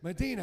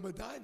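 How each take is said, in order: First: The name is said the GPS way. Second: The name is said the local way. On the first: The speaker calls it wrong. "as the GPS says" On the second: The speaker calls it right. "I want to go to Medina"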